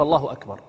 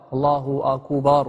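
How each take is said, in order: First: Said in the usual way. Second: الله أكبر slowly, with long vowels after the kaf and ba of أكبر; mispronounced takbir. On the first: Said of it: "الصحيح أن يقول". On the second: Shown as a demonstration. Teacher showing students a faulty takbir, أكبر drawn out as "akuubaar". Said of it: "قالها بمد الكاف والباء".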